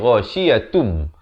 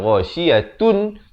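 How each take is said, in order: First: The word ends with an m sound. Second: The word ends with an n sound. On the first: "jadi ghasyiatum" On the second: "Daripada ghasyiyatun"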